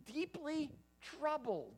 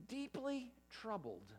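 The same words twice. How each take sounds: First: Higher, slow, each word of Deeply troubled held; the preacher underlines Deeply troubled for the flock; emphatic slow repeat. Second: Deeply troubled said slowly, leaning on deeply; the preacher weighs deeply troubled; slow stress. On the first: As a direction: lift and stretch Deeply troubled. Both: Shown as a demonstration. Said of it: "Now, that's a lot different".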